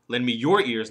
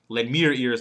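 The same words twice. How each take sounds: First: The word your is stressed. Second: The word me is stressed. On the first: Give your own, not someone else's. "The third one, not somebody else's ears" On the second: Give them to me, not someone else. "Second one, not somebody else"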